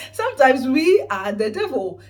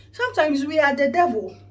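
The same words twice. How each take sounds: First: Louder repeat. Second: Louder punchline. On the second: Punchline about being the devil. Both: Real, not acted.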